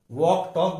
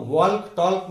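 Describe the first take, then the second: First: वॉक टॉक with silent L; correct pronunciation. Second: वॉक टॉक with the L sounded; wrong pronunciation. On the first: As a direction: say वॉक टॉक as "wawk, tawk". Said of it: "बोलते". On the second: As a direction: say वॉक टॉक as "walk, talk" with audible L. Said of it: "नहीं बोलते". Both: Shown as a demonstration.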